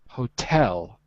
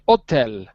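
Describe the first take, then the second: First: It has English pronunciation, stressing the second syllable. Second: It has French pronunciation, like the French word. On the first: "in English, it's the second syllable on hotel" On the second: "In French, you'd say hôtel"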